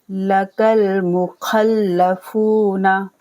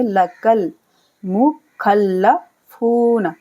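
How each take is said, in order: First: लकल मुखल्लफूना recited very slowly in tilawat style; slow chanted verse; slow recitation. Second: लकल मुखल्लफूना with काफ and लाम blended, very slow; slow blended teaching take; joined recitation. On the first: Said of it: "बीच में जो खाली अलिफ है इसे नहीं पढ़ा जाएगा". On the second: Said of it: "काफ को लाम के साथ मिला देंगे". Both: Shown as a demonstration.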